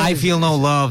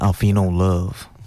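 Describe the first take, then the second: First: It is said in a plain speaking voice. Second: It is said in a put-on R&B voice.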